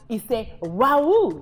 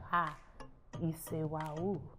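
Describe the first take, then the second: First: It sounds delighted about great news. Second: It sounds dismayed about something terrible.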